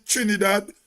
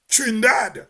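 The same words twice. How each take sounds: First: Said in the usual way. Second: "Trinidad" squeezed to two syllables, "Trin-dad"; Trinidadian pronunciation. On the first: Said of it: "They don't say Trin-, Trinidad". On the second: Shown as a demonstration. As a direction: drop the middle vowel of "Trinidad": "Trin-DAD". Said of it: "They say Trin-, Trinidad".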